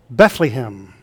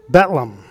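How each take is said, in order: First: The middle syllable has a long E vowel. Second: The word is said with only two syllables. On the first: "Others put a long E in the middle syllable" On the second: "Some pronounce it with just two syllables"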